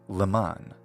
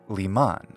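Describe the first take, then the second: The two takes are said the same way.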